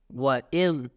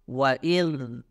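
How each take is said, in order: No difference in how they are said.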